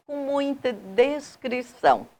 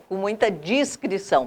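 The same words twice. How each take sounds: First: "descrição" said with DES at the start; slip of pronunciation. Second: "discrição" said with DIS at the start; corrected pronunciation. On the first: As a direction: say "descrição" with an e in the first syllable. ("descrição" com "des" no começo) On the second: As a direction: say "discrição" with an i in the first syllable. ("discrição" com "dis" no começo) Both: Real, not acted. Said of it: "perdão, o erro".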